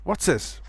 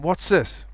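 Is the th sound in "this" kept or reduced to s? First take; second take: reduced; reduced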